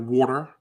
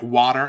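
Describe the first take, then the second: First: Water with rounded "aw", as "WAW-ter"; New York pronunciation. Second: Water with open "ah", as "WAH-der"; Midwest pronunciation. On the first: Co-host giving the New York contrast, water as "WAW-ter". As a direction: round the first vowel of water to "aw". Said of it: "instead of water". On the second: Co-host showing his acquired variant, water as "WAH-der". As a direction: open the first vowel of water to "ah". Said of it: "water instead of water". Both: Shown as a demonstration.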